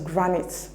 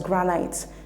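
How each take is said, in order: First: The second vowel is a short sound. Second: The second vowel is a long sound. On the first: The speaker calls it right. "The correct pronunciation of the word is granite" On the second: The speaker calls it wrong. "That is not the appropriate pronunciation"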